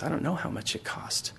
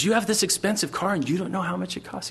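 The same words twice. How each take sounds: First: Subdued reply. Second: Higher-pitched disbelieving question; mock incredulous kid. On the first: Acted. Car owner answering the kid's question, quiet and subdued. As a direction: answer quietly, almost under your breath. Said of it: "The guy goes". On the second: Kid questioning the owner of an expensive car, acted disbelief. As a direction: act a kid amazed at the answer. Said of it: "And he goes".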